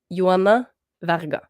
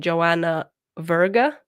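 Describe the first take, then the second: First: The name is pronounced with Norwegian sounds. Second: The name is pronounced with English sounds. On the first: "in Norwegian" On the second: "if I say it in English"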